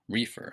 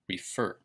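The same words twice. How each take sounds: First: The stress is on the first syllable. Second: The stress is on the second syllable. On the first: The speaker calls it wrong. "It is not pronounced refer" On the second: The speaker calls it right. "it's on the second syllable"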